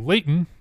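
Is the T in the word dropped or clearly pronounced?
dropped. The T is dropped, Utah style.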